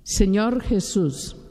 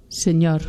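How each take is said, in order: First: Slow, each word laid out for her to repeat; slow dictation. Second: Said in the usual way. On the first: Retold or imitated. Preacher leading a girl in prayer, slow dictation. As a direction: spell out Señor Jesús slowly so she can follow. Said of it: "Mija, repita conmigo".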